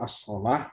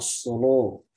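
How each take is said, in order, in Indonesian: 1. Bunyi L itu tipis. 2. Bunyi L itu sangat tebal.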